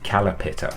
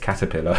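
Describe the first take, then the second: First: The t and l sounds are swapped around. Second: The sounds are in their standard order. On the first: A child mispronounces the word. The speaker calls it wrong. "they were still saying calapitter" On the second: This is the correct pronunciation. The speaker calls it right. "it's caterpillar"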